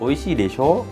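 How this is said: The pitch rises strongly at the end. The meaning changes. The speaker calls it wrong.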